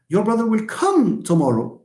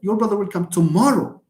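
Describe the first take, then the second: First: The stress falls on the word come. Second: The stress falls on the word tomorrow. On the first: "When you when you stress the word come" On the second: "And when you stress tomorrow"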